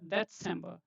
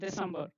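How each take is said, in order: First: The first consonant is a 'ts' sound. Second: The first consonant is a plain 's' sound. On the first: The speaker calls it right. "This is combination of T and S. So this is read as December" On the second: The speaker calls it wrong. "not December"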